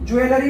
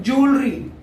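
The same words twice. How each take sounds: First: ज्वेलरी as joo-e-la-ree, every vowel sounded; common reading. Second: ज्वेलरी squeezed into two syllables, JOOL-ree; correct pronunciation. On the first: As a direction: show the common long reading of ज्वेलरी, in four syllables. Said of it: "बोलते हैं बहुत सारे लोग". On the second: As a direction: model ज्वेलरी as "jool-ree", middle vowels dropped. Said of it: "इसका जो सही pronunciation है". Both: Shown as a demonstration.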